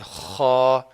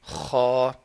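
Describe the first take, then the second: The two takes are said the same way.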